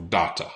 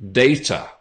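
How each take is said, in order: First: Data with a broad ah vowel, DAH-ta; unnatural variant. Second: Data with a long ay vowel, DAY-ta; preferred pronunciation. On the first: Teacher showing the version she avoids. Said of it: "It sounds pretty unnatural". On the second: Teacher modelling data for students. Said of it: "I would pronounce this as". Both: Shown as a demonstration.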